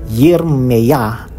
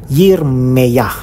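No difference in how they are said.

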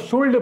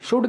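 First: The L sound is pronounced in the word. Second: The L sound is silent in the word. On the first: The speaker calls it wrong. "बहुत से लोग इसको शुल्ड पढ़ते हैं" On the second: The speaker calls it right. "एल silent होता है"

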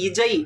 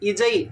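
First: The middle consonant is a 'j' sound. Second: The same.

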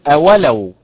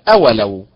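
First: The stress is on the second syllable. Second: The stress is on the first syllable. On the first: "وليست أولو بالنبر على حركة الواو" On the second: "وليست أولو بالنبر على حركة الهمزة"

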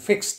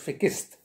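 First: The word is said without an extra vowel. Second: The word is said with an extra vowel.

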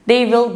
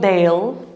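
First: Will is said as a full separate word. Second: Will is contracted into one syllable with they.

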